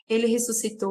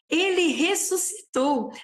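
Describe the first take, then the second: First: It is said flatly, without excitement. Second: It is said joyfully, as an exclamation.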